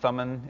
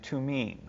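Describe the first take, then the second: First: The word is said with an anglicized pronunciation. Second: The word is said with a Hebrew pronunciation. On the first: "is fine by me" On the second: "this is the Hebrew way of saying it"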